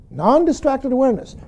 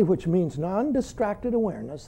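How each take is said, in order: First: "Non-distracted" lifted and pressed, falling on "awareness"; stress on non-distracted. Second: Said in the usual way. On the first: Shown as a demonstration. Teacher repeating the term for students, pressing "Non-distracted".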